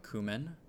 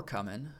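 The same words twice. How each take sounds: First: Cumin said as KOO-min; first syllable of cumin like "coo"; host's usual pronunciation. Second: Cumin said as KUM-in; first syllable of cumin like "come"; guest's preferred pronunciation. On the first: Shown as a demonstration. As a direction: open cumin with a long "oo". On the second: Retold or imitated. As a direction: open cumin with a short "uh". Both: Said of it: "or as he liked to pronounce it".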